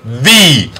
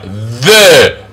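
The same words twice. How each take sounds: First: "the" drawn out as "thee". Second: "The" drawn out as "thuh". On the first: Teacher giving the other pronunciation, "the" as a long "thee". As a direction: say "the" long with an ee vowel. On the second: Teacher contrasting pronunciations, "The" as a long "thuh". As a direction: say "The" long with a relaxed uh vowel. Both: Shown as a demonstration. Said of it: "Or some people pronounce the".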